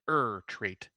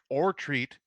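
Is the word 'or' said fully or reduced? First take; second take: reduced; full. First: The word 'or' is reduced to 'er'. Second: The word 'or' is said in full. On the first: It names this particular film title. "The reason I say er treat" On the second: It could be any of several same-named films. "instead of or treat"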